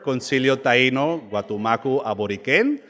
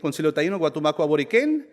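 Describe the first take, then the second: First: The phrase is said slowly. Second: The phrase is said quickly. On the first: The speaker calls it right. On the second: The speaker calls it wrong.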